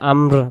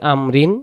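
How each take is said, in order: First: The word stops short after the r. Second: The word ends with an added -in sound. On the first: The reader stops and takes a breath here. "এই জায়গায় যদি দমটা আমরা ছেড়ে দিই আমর পড়বো" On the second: The reading continues on without stopping. "কেউ আমরা পড়ি আমরিন"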